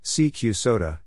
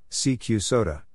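Both takes have the same delivery.

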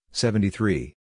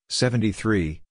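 Both takes have the same delivery.

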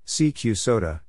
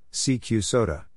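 No difference in how they are said.

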